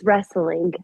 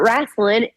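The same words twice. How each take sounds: First: It is said in the standard pronunciation. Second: It is said in a local slang pronunciation. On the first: "Yes, it is wrestling. I know how to say it correctly" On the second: "but wrestling, it's a part of who I am"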